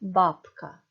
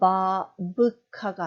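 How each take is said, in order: First: The middle consonant sounds like a voiceless p. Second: The middle consonant sounds like a voiced b. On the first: The speaker calls it right. "뒤에 크 때문에 브가 프 발음 납니다" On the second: The speaker calls it wrong. "바브카가 아니고"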